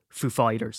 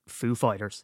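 First: "Fighters" stressed over "Foo". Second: Said in the usual way. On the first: Shown as a demonstration. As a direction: put the weight on the word "Fighters". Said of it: "emphasis on the second one". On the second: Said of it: "instead of saying Foo Fighters".

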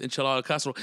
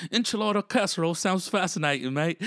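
First: Said in the usual way. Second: High-pitched British bloke imitation; British accent. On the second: British brother hearing the podcast name, British accent. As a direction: repeat it as a fascinated Brit, pitched up. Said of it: "British brother".

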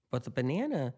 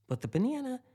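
First: "banana" said a little higher and louder; stressed banana. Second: "banana" jumps way up in pitch, louder; high emphatic banana. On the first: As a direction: lean into "banana" to start the point. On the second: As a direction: fling "banana" up high in disbelief. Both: Real, not acted.

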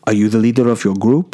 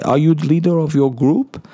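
First: Bad Dutch accent. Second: Higher, far more put-on Dutch lady voice; nailing the Dutch accent on the last go. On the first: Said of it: "that was the worst Dutch accent ever". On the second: Dutch dancer asking the groom for the group leader, higher accented voice. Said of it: "That's, yeah".

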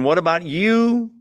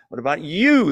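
First: Said in the usual way. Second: "you" in "What about you?" leaned on with a falling end; stress on YOU. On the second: Shown as a demonstration. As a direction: make "you" the word that matters. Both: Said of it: "The you is emphatic".

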